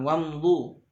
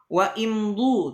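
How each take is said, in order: First: Wa runs straight into mdu without a break. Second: Wa is separate and the word starts with i. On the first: The speaker calls it right. "Harus disambungkan" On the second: The speaker calls it wrong. "tidak boleh"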